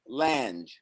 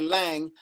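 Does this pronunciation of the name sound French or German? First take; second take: French; German. First: The name is said the French-influenced way. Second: The name is said the German way. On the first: This is the family's own form of the name. "my father says Lange" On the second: This is the German form of the name. "they don't say Lang. Lang is German"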